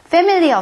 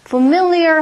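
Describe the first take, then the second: First: The stress is on the first syllable. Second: The stress is on the second syllable. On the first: The speaker calls it wrong. "familiar가 아니라" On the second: The speaker calls it right. "강세가 이음절이 있기 때문에 familiar 하고 발음하셔야 돼요"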